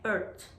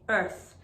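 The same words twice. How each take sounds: First: The final th sound is missing. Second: The final th sound is clear. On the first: The speaker calls it wrong. "If you don't say the T H correctly" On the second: The speaker calls it right. "Make sure you're saying earth"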